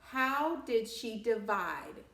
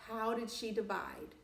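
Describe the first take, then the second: First: Slow, stressed question with HOW leaned on; emphatic question. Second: Said in the usual way. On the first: Shown as a demonstration. Teacher prompting the class, stretching "how" slowly.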